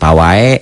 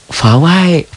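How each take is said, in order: First: The word begins with a p sound. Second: The word begins with an f sound. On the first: The speaker calls it wrong. "bukan pawai" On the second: The speaker calls it right. "Fawai Fawai"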